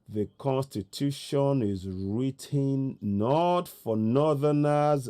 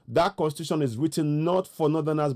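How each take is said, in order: First: It is said slowly. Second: It is said at normal speed.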